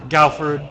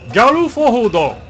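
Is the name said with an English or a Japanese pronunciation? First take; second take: English; Japanese. First: The name is said with English sounds. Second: The name is said with Japanese-style syllables.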